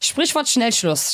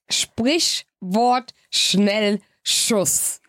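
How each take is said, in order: First: The phrase is said at a quicker pace. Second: The phrase is said very slowly.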